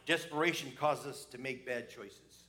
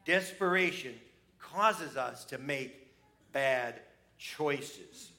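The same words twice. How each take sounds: First: Said in the usual way. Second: "Desperation causes us to make bad choices" slowly, in separate weighted chunks; slow down and pause within "Desperation causes us to make bad choices", landing on "bad choices"; emphatic repetition. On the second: Shown as a demonstration. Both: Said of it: "I'm gonna say that again".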